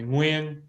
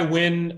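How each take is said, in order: First: The name is said with Vietnamese pronunciation. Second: The name is said in an anglicized way. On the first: This is the form for Vietnamese speakers. "if you're Vietnamese, you can call me Nguyen. Slightly harder" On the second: This is the everyday form for most people. "I go by Nguyen"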